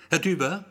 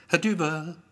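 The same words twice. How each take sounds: First: Raised, louder "Herr Düber" with a rising end; high summons lifting at the end; questioning call. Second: High summons, "Herr Düber" called as a statement; firm raised call of "Herr Düber". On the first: Receptionist calls again, as question. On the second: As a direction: call "Herr Düber" across a waiting room. Receptionist calls Gero's name. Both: A narrator's reading.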